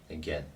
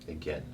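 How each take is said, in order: Both takes have the same delivery.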